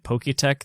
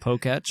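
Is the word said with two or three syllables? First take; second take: three; two. First: The word ends with a full extra syllable 'tech'. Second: The word ends with a short 'tch' sound. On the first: The speaker calls it wrong. "you've been pronouncing it Poketech this whole time" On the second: The speaker calls it right. "but it's actually Poketch"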